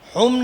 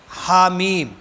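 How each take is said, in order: First: The letters are merged into one short syllable, hum. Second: Each letter name is said separately: ha, then mim. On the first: The speaker calls it wrong. "हुम नहीं पढ़ेंगे" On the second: The speaker calls it right. "हर हर्फ को अलग अलग पढ़ा जाएगा"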